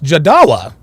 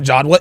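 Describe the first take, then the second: First: The name is said with three syllables. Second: The name is said with two syllables. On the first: The speaker calls it right. "It's Jadawa" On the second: The speaker calls it wrong. "I've been pron- mis- mispronounce your name"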